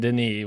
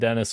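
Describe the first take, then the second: First: The name is said the French way. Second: The name is said the English way. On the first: The speaker calls it right. "but I know it's fucking Denis" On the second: The speaker calls it wrong. "I said Dennis Villeneuve"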